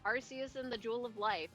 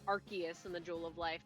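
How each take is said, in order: First: Arceus is pronounced in an unofficial way. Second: Arceus is pronounced in the official way. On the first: The speaker calls it wrong. "I don't care to say its name correctly" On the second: The speaker calls it right. "or as they would say"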